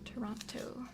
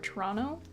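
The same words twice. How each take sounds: First: The second T is clearly pronounced. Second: The second T is dropped from the word. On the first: This is how few local people say it. "I'm the only person from Toronto that pronounces the second T" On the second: This is how most local people say it. "Most people say Toronto or Toronto"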